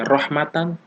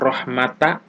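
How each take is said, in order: First: The word ends with an n sound. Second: The word ends on an open vowel. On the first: "tidak boleh dibaca rohmatan" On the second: "tidak boleh dibaca rohmata"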